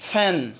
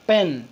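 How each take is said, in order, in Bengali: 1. প্রথম ধ্বনিটি শ্বাসযুক্ত, অ্যাস্পিরেটেড p। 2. প্রথম ধ্বনিটি সাধারণ, অ্যাস্পিরেটেড নয় এমন p। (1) "এখন থেকে আমরা উচ্চারণ করব ফ্যান, ফ এর মতো" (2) "আগে আমরা উচ্চারণ করতাম পেন পেন"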